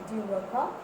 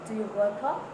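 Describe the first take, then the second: The two takes are said the same way.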